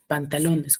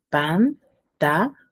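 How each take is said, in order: First: Said in the usual way. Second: "Pantalones" in four slow beats, pan - ta - lo - nes; syllable by syllable. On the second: Shown as a demonstration. Teacher asking how many syllables, "Pantalones" split by syllables. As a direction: pause clearly between all four syllables of "Pantalones". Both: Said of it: "cuántas sílabas tendrá".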